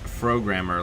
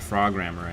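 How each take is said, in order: First: The first syllable sounds like pro. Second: The first syllable sounds like frog. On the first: "like programmer?" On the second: "I just assumed it was meant to be pronounced like frog"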